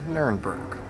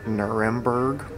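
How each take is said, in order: First: The name is said with a German pronunciation. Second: The name is said with an English pronunciation. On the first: "Here in German, you say" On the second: "In English, we say"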